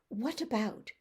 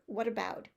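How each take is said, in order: First: The t is a clear, separate t sound. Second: The t is a quick flap, like a soft d. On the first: "In your dialect, it might be" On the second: "In my American dialect, there's a little flap there"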